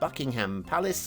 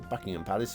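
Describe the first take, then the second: First: The last syllable of Buckingham sounds like ham. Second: The last syllable of Buckingham sounds like hum. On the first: This is how outsiders say it. "We don't do ham" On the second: This is how locals say it. "as we say over here. We don't do ham, we do hum"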